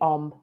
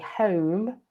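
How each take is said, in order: First: The H at the start is dropped. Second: The H at the start is pronounced.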